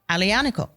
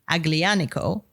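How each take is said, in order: First: The G sound is left out entirely. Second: The G sound is pronounced in the word. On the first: The speaker calls it right. "It's a silent G. So Alianico" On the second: The speaker calls it wrong. "I used to say Aglianico, the French, because in French, the G, you pronounce the G"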